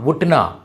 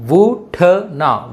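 First: Said in the usual way. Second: Very slow, drawn-out ఉట్నా; syllable by syllable. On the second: Shown as a demonstration. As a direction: sound out ఉట్నా for learners. Teacher sounds out word once more.

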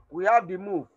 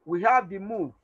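Both takes have the same delivery.

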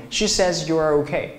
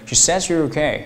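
First: "says you are" word by word; learner's unlinked reading. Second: "says you're" blended with a j-like sound; teacher's linked reading. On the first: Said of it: "你会读成什么". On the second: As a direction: run "says you're" together in one go. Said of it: "我会读成". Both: Shown as a demonstration.

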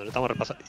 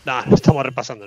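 First: Softer, half to himself; quieter repeat. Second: Said in the usual way. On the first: Real, not acted. Streamer mutters the repeat to himself, softer. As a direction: drop the repeat down under the breath.

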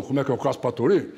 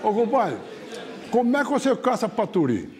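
First: Lightly voiced buddy, echoing the question; answering caboclo. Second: Higher-pitched countryman's question; curious caboclo. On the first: Second caboclo echoing his friend's question, lightly acted. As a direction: hand the question back in an easy, unraised voice. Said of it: "O outro falou". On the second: Retold or imitated. Caboclo quizzing his hunting buddy, high curious voice. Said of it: "o outro falou assim".

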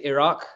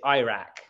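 First: IRAQ said as ih-RAHK; British pronunciation. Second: IRAQ said as EYE-rack; American pronunciation. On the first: Contrasting English with American speech, ih-RAHK. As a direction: say Iraq with short first vowel, stress on the second syllable. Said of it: "we say Iraq". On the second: Showing how Americans say it, EYE-rack. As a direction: say Iraq with a first syllable like "eye". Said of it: "they say Iraq". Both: Shown as a demonstration.

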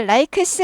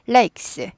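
First: "likes" with a vowel after the k, "li-keu-seu"; wrong extra syllable. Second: "likes" as one syllable ending in "ks"; joined final consonants. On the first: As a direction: split "likes" into Korean-style syllables. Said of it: "발음을 likes 하지 않습니다". ("likes" 라이크스로 모음 넣어서) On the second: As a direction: close "likes" on a tight ks, no vowel between. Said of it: "아니고 likes". ("likes" 라익스로 한 음절처럼) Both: Shown as a demonstration.

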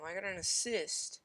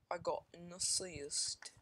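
First: Said in the usual way. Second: Slow, hammed-up foreign accent on "I got an assist"; bad mock accent. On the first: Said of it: "the worst accent in the entire world". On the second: Shown as a demonstration. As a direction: stretch out "I got an assist" in a deliberately terrible accent. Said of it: "It's like the worst accent in the entire world".

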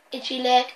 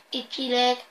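No difference in how they are said.

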